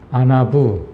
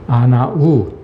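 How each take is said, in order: First: The word ends in a 'boo' sound. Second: The word ends in a plain 'oo' vowel. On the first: "부라고 발음하기도 하고" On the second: "우라고 바라, 발음하기도 합니다"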